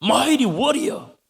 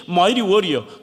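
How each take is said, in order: First: "Mighty" stretched very slow, pitch rising high; drawn-out rising call. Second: "Mighty" stressed, tune falling; falling call. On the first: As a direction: call out "Mighty warrior" slowly, lifting up on "Mighty". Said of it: "이 대단한 소리죠". ("Mighty"를 아주 길게 끌며 올려 부르기) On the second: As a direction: say "Mighty warrior" firmly, dropping at the end. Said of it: "심지어 이". ("Mighty"에 힘주고 끝을 내리기) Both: Shown as a demonstration.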